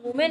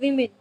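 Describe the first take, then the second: First: "women" said "WOO-men"; wrong "women". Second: "women" said "WIM-in"; short i vowels in both halves of "women"; correct "women". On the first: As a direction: begin "women" with an oo vowel, as commonly mispronounced. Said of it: "it's not women". ("women" को "वुमेन" बोलें) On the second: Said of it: "it's women". ("women" को "विमिन" बोलें) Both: Shown as a demonstration.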